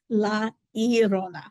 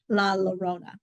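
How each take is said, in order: First: The name is said with a Spanish-style pronunciation. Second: The name is said with an anglicized pronunciation. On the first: The speaker calls it right. "The correct way is La Llorona" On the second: The speaker calls it wrong. "it is definitely not the way you say it"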